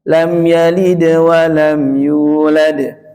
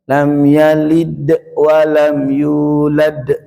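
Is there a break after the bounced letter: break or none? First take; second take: none; break. First: The bounce flows straight into the next letter. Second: A short break follows the bounced consonant. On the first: The speaker calls it right. "mantul langsung balik" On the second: The speaker calls it wrong. "ini seringkali demikian"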